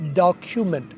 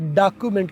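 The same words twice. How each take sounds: First: The k sound is aspirated, with a puff of air. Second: The k sound is unaspirated, without a puff of air. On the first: The speaker calls it right. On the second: The speaker calls it wrong.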